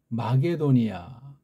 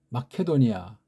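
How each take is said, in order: First: The second syllable starts with a soft g. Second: The second syllable starts with a breathy k. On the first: The speaker calls it wrong. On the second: The speaker calls it right.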